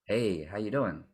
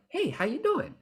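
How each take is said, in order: First: Slow, low-key "Hey, how you doing?"; low slow greeting. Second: Much higher, lively "Hey, how you doing?"; high bright greeting. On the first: Coach trying the same greeting low and slow. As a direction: drop it down and take your time. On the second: Coach experimenting with a high version of the greeting. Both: Shown as a demonstration. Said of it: "we experiment with our voice and be like".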